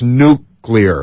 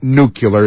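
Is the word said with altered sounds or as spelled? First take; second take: as spelled; altered sounds. First: The word's sounds follow its spelling. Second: The word's sounds differ from its spelling. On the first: The speaker calls it right. "Look at the way it's spelled, pronounce it that way" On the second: The speaker calls it wrong. "It's not nuclear"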